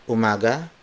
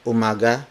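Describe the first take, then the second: No difference in how they are said.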